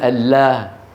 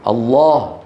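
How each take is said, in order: First: The L sound is thin and light. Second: The L sound is thick and heavy. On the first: The speaker calls it wrong. "ولا يقولون" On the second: The speaker calls it right. "كل العرب يقولون إيه؟ ... يفخمون"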